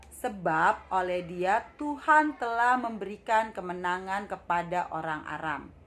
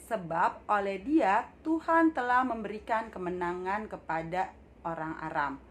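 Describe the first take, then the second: The two takes are said the same way.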